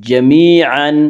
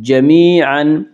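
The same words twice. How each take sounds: No difference in how they are said.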